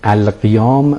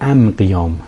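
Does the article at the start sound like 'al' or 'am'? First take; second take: al; am. First: The word begins with an 'al' sound. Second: The word begins with an 'am' sound. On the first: "میخوان بگن القیام" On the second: "لام رو تبدیل به میم میکنن"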